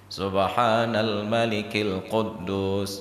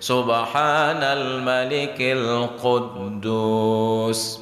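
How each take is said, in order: First: It is said at a normal, quieter volume. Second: It is said with a raised, louder voice.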